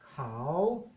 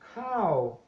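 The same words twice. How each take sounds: First: The word is said on a rising tone. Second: The word is said on a falling tone. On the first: "if you apply the rising tone" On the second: It means rice. "the falling tone"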